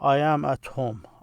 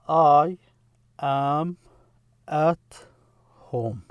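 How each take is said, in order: First: The words run together smoothly without gaps. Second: Each word is said clearly apart from the others. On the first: "usually when you say it" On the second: "the way I pronounce it is to make it distinct"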